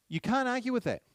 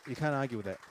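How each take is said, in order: First: Much higher and louder, hammering it home; emphatic outburst. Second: Said in the usual way. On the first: Real, not acted. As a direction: throw it at the room, no argument allowed. Lecturer repeats point, much louder.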